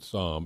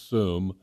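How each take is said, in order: First: The name is said like the wine word 'somm'. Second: The name is said with an 'oo' vowel. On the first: The speaker calls it wrong. "if you're a wine guy, you might pronounce it Somm. It's not" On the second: The speaker calls it right. "It's Soom, S-O-O-M"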